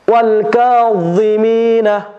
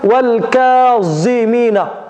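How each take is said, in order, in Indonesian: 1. Konsonannya tebal, lidah menekan langit-langit. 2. Konsonannya bunyi z biasa yang ringan.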